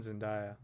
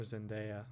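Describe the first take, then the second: First: "Zendaya" with DYE in the middle; first pronunciation. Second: "Zendaya" with DAY in the middle; alternative pronunciation. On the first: Unsure of the actress's name, trying "Zendaya" as zen-DYE-uh. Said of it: "Or Zendaya, however you say it". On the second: Offering another way to say the actress's name, "Zendaya" as zen-DAY-uh. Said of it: "however you say it". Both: Shown as a demonstration.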